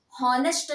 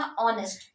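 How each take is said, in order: First: हॉनेस्ट said with a sounded H, "haw-nest"; wrong pronunciation with H. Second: ऑनेस्ट starting straight on the vowel, "aw-nest"; silent H pronunciation. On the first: Teacher showing students the wrong हॉनेस्ट with a sounded H. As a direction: pronounce हॉनेस्ट with a clear H at the start. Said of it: "हॉनेस्ट नहीं होता है". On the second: Teacher giving students the correct ऑनेस्ट with a silent H. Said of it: "वो क्या होता है?". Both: Shown as a demonstration.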